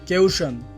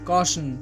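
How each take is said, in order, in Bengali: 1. প্রথম স্বরধ্বনিটি 'ay-oo'-এর মতো শোনায়। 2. প্রথম স্বরধ্বনিটি 'aw'-এর মতো শোনায়। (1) "এটি ভুল উচ্চারণ" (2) "এই শব্দটির সঠিক উচ্চারণ হবে কশন"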